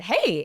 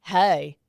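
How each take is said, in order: First: Her own perky phone "Hey", pitch jumping up; retold upbeat hello; bright greeting. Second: Imitated date's loud Californians-Cajun "Hey"; mock Cajun-Californian drawled hello; slurred Californians-Cajun accent. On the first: Woman answering her date's call, perky hey. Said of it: "I said". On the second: Date greeting her on the phone, slurred Californians-Cajun drawl. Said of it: "slur their words together".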